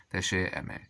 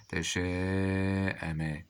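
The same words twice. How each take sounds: First: Said in the usual way. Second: تشاءم with a very long held aa; very slow teacher's sounding-out; drawn-out dictation. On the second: Shown as a demonstration. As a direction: stretch the vowel before the hamza. Teacher sounds word out, then repeats.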